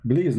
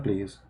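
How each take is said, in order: First: "Please" said with B, as "bleez". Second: Said in the usual way. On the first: Shown as a demonstration. Speaker mocking his own English, B-for-P pronunciation. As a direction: soften the P of "Please" into a B. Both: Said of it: "Please, not please".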